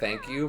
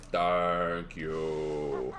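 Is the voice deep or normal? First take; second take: normal; deep. First: It is said in a normal voice. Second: It is said in a very low voice.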